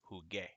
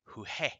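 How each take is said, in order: First: The second consonant is a hard G sound. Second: The second consonant is a raspy H-like sound. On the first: The speaker calls it right. "So now it says jugué" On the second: The speaker calls it wrong. "we pronounced juje"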